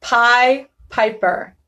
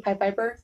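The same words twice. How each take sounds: First: "Pie Piper" said slowly with crisp P's; careful slow "Pie Piper". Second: "Pie Piper" rushed and quiet; fast "Pie Piper". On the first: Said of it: "Or if I say it". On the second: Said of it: "real fast while thinking". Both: Shown as a demonstration.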